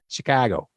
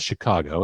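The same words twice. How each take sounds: First: The word is said in a local Chicago accent. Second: The word is said in a standard, non-local accent. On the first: The speaker calls it right. "You got to say it with the with the Chicago accent" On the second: The speaker calls it wrong. "It's not Chicago"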